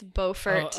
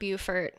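First: It is said the North Carolina way. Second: It is said the South Carolina way. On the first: It names the town in North Carolina. The speaker calls it right. "It's Beaufort" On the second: It names the town in South Carolina. The speaker calls it wrong. "It's not Beaufort. That's in South Carolina"

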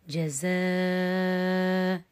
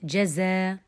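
First: The long vowel is held for six counts. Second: The long vowel is held for two counts.

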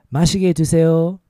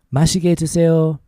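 Both takes have the same delivery.

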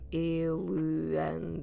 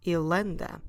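First: The two words are said separately, vowel kept. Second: The vowel is dropped and words run together. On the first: The speaker calls it wrong. "instead of saying il and that it's hard to pronounce" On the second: The speaker calls it right. "you can completely drop it and then it sounds like ilenda"

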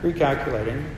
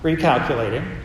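First: The voice sounds calm and laid back. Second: The voice sounds a little annoyed.

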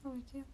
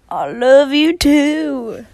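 First: It is said casually and plainly. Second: It is said with exaggerated, heartfelt feeling.

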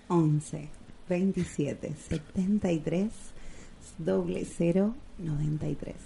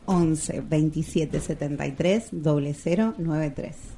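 First: It is said in a sensual voice. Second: It is said in a plain voice.

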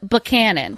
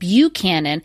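First: The name is said the local Virginia way. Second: The name is said the standard, general way. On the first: This is how the Virginia county's name is said. "It is Buchanan" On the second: This is how the president's name is said. "I think his name is actually pronounced Buchanan"

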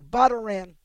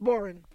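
First: The word is said with three syllables. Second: The word is said with two syllables. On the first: The speaker calls it wrong. "if you pronounced it the way it's spelled" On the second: The speaker calls it right. "It's pronounced boran"

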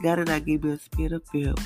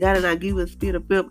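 First: It is said softly, with little force. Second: It is said loudly, with great force.

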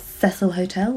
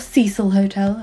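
First: The name is pronounced the British way. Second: The name is pronounced the American way.

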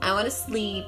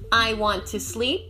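First: Want to is reduced to wanna. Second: Want to is said as two full words.

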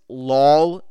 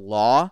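First: The word ends with an l sound. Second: The word ends in an open vowel. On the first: The speaker calls it wrong. "He says lol instead of law" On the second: The speaker calls it right. "instead of law"

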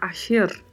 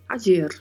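First: The middle consonant sounds like 'sh'. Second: The middle consonant sounds like 'dj'. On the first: This is a regional pronunciation. "em alguns lugares a pronúncia também tem um som de CH" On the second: This is the general pronunciation. "pronunciada no geral do modo similar a um DJ"

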